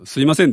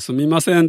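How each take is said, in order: First: The word is said without an m sound. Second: The word is said with an m sound. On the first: "M いらないからって言って" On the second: "すみませんって言ってもいいけど、まああんまり言わない"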